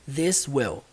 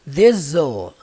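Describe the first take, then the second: First: Both words are said fully and separately. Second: The words are slurred together into one syllable.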